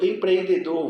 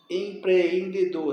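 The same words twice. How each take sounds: First: Said in the usual way. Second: Slow "empreendedor", the two Es held apart; separated vowels. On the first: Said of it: "Sempre separam". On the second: Shown as a demonstration. Teacher showing these words always separate, slow divided "empreendedor". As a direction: draw out "empreendedor" between pre and en. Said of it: "essas palavras sempre se separam".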